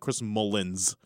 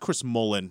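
First: The name ends with an s sound. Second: The name ends without an s sound. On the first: The speaker calls it wrong. "There's no S at the end of his name" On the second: The speaker calls it right. "it's Chris Mullen"

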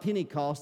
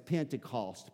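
First: The word is said quickly, run together. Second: The word is said slowly and clearly. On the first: It sounds like a penny cost. The speaker calls it wrong. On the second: It names the feast of the fiftieth day. The speaker calls it right.

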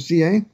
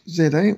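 First: Z is said as zee, American style. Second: Z is said as zed, non-American style.

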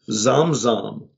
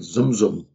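First: Both syllables have an open 'a' vowel. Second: Both syllables have a 'u' vowel as in 'cup'.

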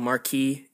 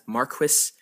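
First: It is said with a French-style pronunciation. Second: It is said with a British English pronunciation. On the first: "I prefer the French pronunciation" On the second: "pronounced in the UK as Marquis"

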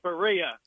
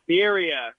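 First: The first syllable does not sound like beer. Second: The first syllable sounds like the word beer. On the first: The speaker calls it wrong. "not Berea" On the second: The speaker calls it right. "it's Birria"

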